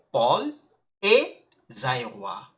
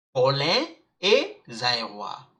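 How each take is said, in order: First: "Paul" as one syllable ending on a clear L; "Paul" said "pol", set apart and slow; Paul with sounded L. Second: "Paulin" in two syllables, po-LAN with silent n; Paulin with nasal ending. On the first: Teacher contrasting two male names, "Paul" as a single "pol". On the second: Teacher contrasting two male names, "Paulin" ending in nasal "an". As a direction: slowly model "Paulin", ending on the nasal vowel. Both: Shown as a demonstration. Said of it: "Don't get confused between Paulin and Paul".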